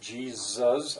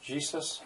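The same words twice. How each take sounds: First: The middle consonant is a buzzing z sound. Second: The middle consonant is a hissing s sound. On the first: "some people say it as a Z" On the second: "Some as a true S"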